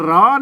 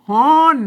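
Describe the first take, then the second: First: The word begins with an R sound. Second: The word begins with an H sound. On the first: This is the standard Thai reading. "ถ้าเป็นภาษาไทยมันก็ร้อน" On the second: This is the Northern Thai reading. "อ่านว่ากลางวันวี่แดดฮ้อน"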